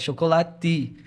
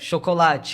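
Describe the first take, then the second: First: The T is a plain hard 't'. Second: The T is softened to a 'ch' sound.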